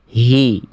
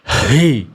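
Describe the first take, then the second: First: The h is pressed lightly at the throat. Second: The h is pushed forcefully from the chest. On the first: The speaker calls it right. "cukup ditekan aja pangkat tenggorokannya" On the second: The speaker calls it wrong. "Saya tadi malah berlebihan dari dada ya"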